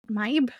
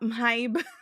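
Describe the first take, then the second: First: The b sound is plain, without breathiness. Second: The b sound is breathy, with an h. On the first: "That's how I've been saying her name" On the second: "I try to pronounce the H's, so I go"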